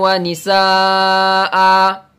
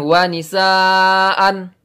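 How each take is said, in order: First: The phrase ends with a long a vowel. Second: The phrase ends with an n sound. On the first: The speaker calls it right. "Kalau kita berhenti maka an menjadi a, panjangnya dua harokat" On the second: The speaker calls it wrong. "Jadi bukan wa nisaan, bukan"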